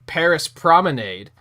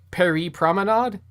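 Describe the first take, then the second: First: The name is said with an American pronunciation. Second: The name is said with a local pronunciation. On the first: The speaker calls it wrong. "at the time I was like" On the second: The speaker calls it right. "isn't it pronounced like"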